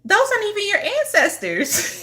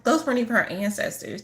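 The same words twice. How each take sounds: First: High, laughing through the words; laughing disbelief. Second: Said in the usual way. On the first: Retold or imitated. Laughing at a client's fake ancestor altar. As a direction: laugh at her mistake while telling her. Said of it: "and I was like".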